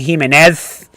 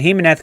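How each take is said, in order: First: The name is said with heavily overdone pronunciation. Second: The name is said plainly, without exaggeration. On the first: "overplaying it" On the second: "It's not like he's going and Jimenez coming through"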